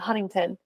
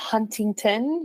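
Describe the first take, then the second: First: The T sounds are dropped. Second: The T sounds are fully pronounced.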